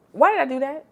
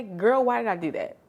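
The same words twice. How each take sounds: First: Higher and louder, laughing at own mistake; exasperated cry. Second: Said in the usual way. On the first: Real, not acted. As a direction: wail it at yourself in disbelief.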